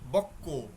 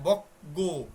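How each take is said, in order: First: The middle consonant is a doubled k sound. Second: The middle consonant is a plain g sound. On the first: The speaker calls it right. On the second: The speaker calls it wrong.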